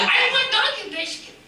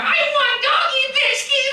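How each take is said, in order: First: Much higher pleading puppet voice; begging puppet dog. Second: Much higher, slower, insistent plea; begging puppet dog. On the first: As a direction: whine for the biscuit. Puppet Chico begs. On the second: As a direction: drag out the begging. Puppet Chico begs louder. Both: Acted.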